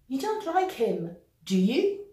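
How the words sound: The pitch rises at the end of the tag. The speaker is not sure. "intonation montante"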